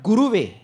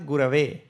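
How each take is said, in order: First: The second vowel sounds like 'u'. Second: The second vowel sounds like 'a'. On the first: The speaker calls it wrong. "and not Guruve" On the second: The speaker calls it right. "Guru in what case is Gurave"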